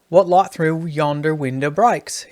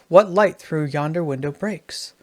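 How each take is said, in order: First: It is spoken in an Australian accent. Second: It is spoken in a plain, unmarked accent.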